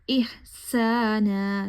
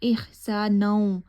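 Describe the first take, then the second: First: The word ends on a long plain vowel. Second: The final n merges into a w-sound. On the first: The reciter stops after this word. "यहाँ पे मैंने वक्फ किया है तो इसलिए एहसानन की बजाय इहसाना पड़ा है" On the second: The word runs on into the next word. "यहाँ पे इदगाम हो रहा है नून का वाव में"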